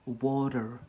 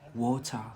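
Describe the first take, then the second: First: The word is said in an American accent. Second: The word is said in an English accent. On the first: "in America, they say water" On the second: "In Brit in England, they say water"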